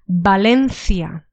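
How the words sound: It is said with a Castilian Spanish pronunciation. "First one is the Castilian pronunciation"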